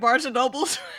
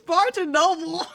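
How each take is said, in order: First: The name ends with an added s sound. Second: The name ends without an s sound. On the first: The speaker calls it wrong. "You be saying Barnes and Nobles?" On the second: The speaker calls it right. "It's Barnes and Noble"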